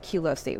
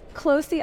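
First: The name begins with a 'kyoo' sound. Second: The name begins with a plain 'k' sound. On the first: The speaker calls it wrong. "what I was saying" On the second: The speaker calls it right. "Closey actually makes so much more sense"

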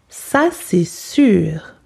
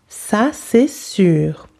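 Both takes have the same delivery.

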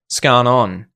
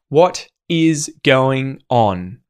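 First: The phrase is squeezed into two syllables, scan on. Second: Every word is said fully and separately.

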